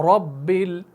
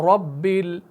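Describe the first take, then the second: Both takes have the same delivery.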